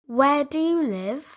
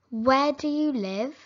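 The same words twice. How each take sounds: The two takes are said the same way.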